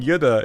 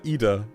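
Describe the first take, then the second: First: The name starts with a 'y' sound. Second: The name starts directly with a vowel. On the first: The speaker calls it wrong. "I kept on saying Yuda instead of" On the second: The speaker calls it right. "instead of uh, Ida"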